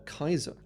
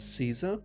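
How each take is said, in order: First: The name begins with a hard K sound. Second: The name begins with a soft S sound. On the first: This is how the Romans said the name. "was actually closer to something like Kaiser" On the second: This is how the name is said today. "the name we pronounce as Caesar"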